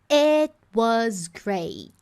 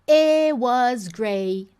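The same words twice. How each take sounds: First: The T in 'it' is held without a burst. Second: The T in 'it' is dropped entirely. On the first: The speaker calls it right. "Eu posiciono o som do T" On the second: The speaker calls it wrong. "Ela não fala"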